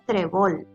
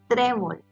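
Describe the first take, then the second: First: The stress is on the last syllable. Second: The stress is on the first syllable. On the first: The speaker calls it wrong. "no es trébol" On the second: The speaker calls it right. "es trébol. Su sílaba tónica es la penúltima"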